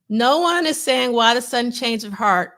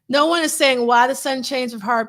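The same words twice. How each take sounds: First: It is read very slowly. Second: It is read at a normal, quicker pace.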